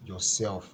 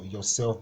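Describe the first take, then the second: First: "yourself" with the weight on SELF; stress on SELF. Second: Said in the usual way. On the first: Shown as a demonstration. Teacher showing the rule on the board, stress on SELF. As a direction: stress the second syllable of "yourself". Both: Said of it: "you have to stress the self part".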